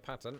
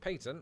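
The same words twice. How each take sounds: First: The word has an American pronunciation. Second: The word has a British pronunciation.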